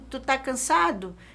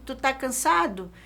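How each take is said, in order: First: The verb is shortened to one syllable. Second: The verb is shortened to one syllable.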